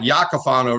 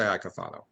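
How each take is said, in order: First: The name begins with a 'ya' sound. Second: The name begins with an 'eye' sound. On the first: This is how the name would originally be said. "it'd be like Yakafano really" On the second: This is how the family says the name. "We say Icofano"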